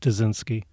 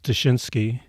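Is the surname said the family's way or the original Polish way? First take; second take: family; Polish. First: The surname is said the family's own way. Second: The surname is said the original Polish way. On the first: This is how the family has always said it. "the family has just always said Dzinski" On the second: This is the name's original pronunciation. "the correct pronunciation is Dyshinsky"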